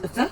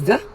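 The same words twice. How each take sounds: First: It begins with a soft th sound. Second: It begins with a hard d sound. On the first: The speaker calls it right. "Malaysians tend to mispronounce the" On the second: The speaker calls it wrong. "as the"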